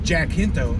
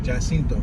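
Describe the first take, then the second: First: The name is said with an English accent. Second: The name is said with a Spanish accent. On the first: "You could say like Jacinto" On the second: "pronounced like with a Spanish accent"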